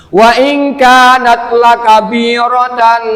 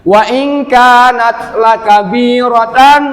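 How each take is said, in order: First: "lakabiratan" slowly chanted with the final n held as a hum; wrong izhar reading. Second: "lakabiratan" chanted slowly, ending on a firm, clear n; clear izhar reading. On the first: Teacher showing students a forbidden reading, "lakabiratan" with wrongly held final n. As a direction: blur and hold the n ending "lakabiratan". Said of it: "Nggak boleh". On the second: Teacher correcting for students, "lakabiratan" read firm and clear. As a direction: finish "lakabiratan" with a distinct unhummed n. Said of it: "tegas atau jelas". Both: Shown as a demonstration.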